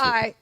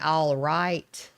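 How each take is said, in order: First: It is squeezed into a single syllable. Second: Both syllables are said in full. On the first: "I say I" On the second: "instead of saying all right"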